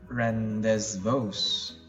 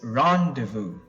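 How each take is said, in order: First: The z and s sounds are clearly pronounced. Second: The z and s sounds are left silent. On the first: The speaker calls it wrong. "Now it's definitely not rendezvous. you will not make the Z sound and the S sound" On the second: The speaker calls it right. "It's rendezvous"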